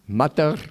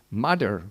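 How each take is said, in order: First: It is said in the speaker's own accent. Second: It is said in an American accent.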